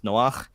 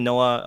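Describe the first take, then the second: First: "Noach" ending in a guttural Hebrew chet; Hebrew pronunciation. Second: Said in the usual way. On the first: Shown as a demonstration. Explaining his Hebrew name to the host, "Noach" with guttural final chet. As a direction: say "Noach" with a throaty friction sound at the end. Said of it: "this guttural noise I'm making right now". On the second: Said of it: "in Hebrew is pronounced Noach".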